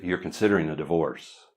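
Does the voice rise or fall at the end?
fall. The voice falls at the end, like a statement.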